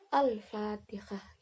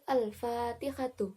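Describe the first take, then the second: First: The word ends with a silent h sound. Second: The word ends with a full tu syllable. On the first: The reading stops at this word. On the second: The reading continues without a stop.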